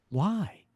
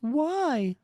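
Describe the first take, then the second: First: Acted hero's questioning cry, slightly raised; Spider-Man. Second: High, drawn-out plaintive woman's voice; Betty Chekhov. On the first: Hero asks himself outside the bar, dejected. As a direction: lament it in a moderately high voice. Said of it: "from Spider-Man saying why". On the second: Acted. Woman questions her partner in crime, plaintive. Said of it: "Betty Chekhov saying why".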